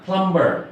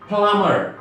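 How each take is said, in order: First: A b sound is heard after the m. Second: No b sound is heard after the m. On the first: The speaker calls it wrong. "Not প্লাম্বার" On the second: The speaker calls it right. "এই বিটা silent থাকে"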